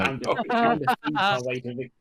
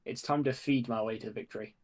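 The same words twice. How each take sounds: First: High, loud mock campaign slogan; mock proclamation. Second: Said in the usual way. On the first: Player pitching for Hobbit votes, mock proclamation. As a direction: call it out high over the laughter.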